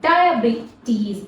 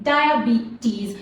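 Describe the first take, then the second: First: The vowels after B and T are long E. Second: The vowels after B and T are long E.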